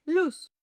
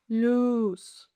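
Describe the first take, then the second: First: Said in the usual way. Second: LUZ with a long, held "oo"; slow, sustained "Luz" for the listener; drawn-out demonstration. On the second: Shown as a demonstration. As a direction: stretch the vowel in "Luz". Word stretched for listening practice.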